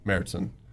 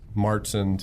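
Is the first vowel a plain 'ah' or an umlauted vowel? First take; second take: umlauted; plain ah. First: The first vowel is an umlauted 'ä' sound. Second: The first vowel is a plain open 'ah'. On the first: "to Märzen" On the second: "changes the A from a Martzen"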